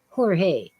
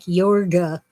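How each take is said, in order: First: The name begins with an H sound. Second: The name begins with a Y sound. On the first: The speaker calls it right. "The J is a Jota. It's H" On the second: The speaker calls it wrong. "pronounce the J like a Y"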